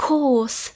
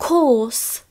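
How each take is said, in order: No difference in how they are said.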